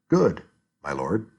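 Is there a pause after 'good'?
yes. There is a pause after good.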